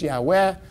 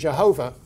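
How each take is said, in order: First: The name starts with a Y sound. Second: The name starts with a J sound. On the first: The speaker calls it right. "We think the correct pronunciation is Yahweh" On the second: The speaker calls it wrong. "which is just all wrong"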